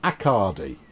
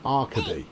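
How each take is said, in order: First: The name rhymes with Bacardi. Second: The name does not rhyme with Bacardi. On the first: The speaker calls it right. "like Bacardi" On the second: The speaker calls it wrong. "your R's in the wrong place"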